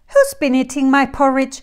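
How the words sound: It is said in a quiet voice.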